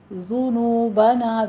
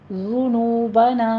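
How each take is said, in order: First: The first vowel is a rounded 'u'. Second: The same.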